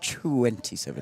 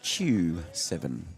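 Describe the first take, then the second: First: The number is said fully as twenty-seven. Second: The number is clipped to sound like chew seven. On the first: "Not, not twenty-seven" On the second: "Chew seven, I think we'll pronounce it"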